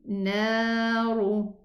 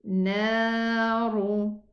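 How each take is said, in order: The two takes are said the same way.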